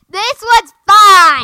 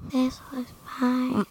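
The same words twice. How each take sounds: First: It is said loudly. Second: It is said quietly.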